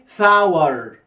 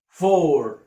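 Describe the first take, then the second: First: The vowel sounds like 'ow-er'. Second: The vowel sounds like 'or'. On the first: The speaker calls it wrong. "ما تجيش هنا تقول لي فاور" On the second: The speaker calls it right. "طبعا أربعة يعني فور"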